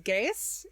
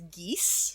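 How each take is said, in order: First: The word is not said as gesh or geese. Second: The word is said as geese. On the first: "the pronunciation of this spell irks me. Everyone says Geas in this" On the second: "there's also a pronunciation of this that is geese"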